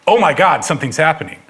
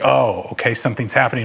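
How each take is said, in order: First: It is said in an alarmed, panicky tone. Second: It is said in a calm, stoic tone.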